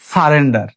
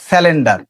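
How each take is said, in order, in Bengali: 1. এটি r ধ্বনি দিয়ে বলা হয়: sarender। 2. এটি sya ও l দিয়ে বলা হয়: syalender। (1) "প্রোনাউন্সটা কি হবে?" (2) "অথবা বলি স্যালেন্ডার"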